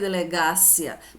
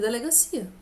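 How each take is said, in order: First: The stress falls on the syllable ga. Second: The stress falls on the syllable ci. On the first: The speaker calls it wrong. "você não lê delegácia" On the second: The speaker calls it right. "Você lê delegacia"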